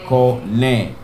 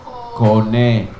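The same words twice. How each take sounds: First: Kone again, KO-ne, falling; Hebrew word repeated. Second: Kone said KO-ne, falling at the end; Hebrew word modeled. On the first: Teacher repeats the word for buying. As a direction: repeat Kone for the class to copy. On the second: Teacher models the word for buying, falling. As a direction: sound out Kone clearly for the class. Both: Shown as a demonstration. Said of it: "The first letter".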